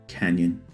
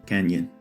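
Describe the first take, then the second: Both takes have the same delivery.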